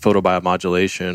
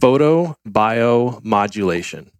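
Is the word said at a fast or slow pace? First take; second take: fast; slow. First: The word is said at a normal, quick pace. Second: The word is said slowly and carefully.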